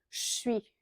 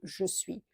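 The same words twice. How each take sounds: First: The two words are squeezed into one syllable. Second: Both words are said fully and separately. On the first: This is how people commonly speak in France. The speaker calls it wrong. "Vous allez entendre je suis au lieu de" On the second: This is the careful, correct form. The speaker calls it right. "au lieu de je suis"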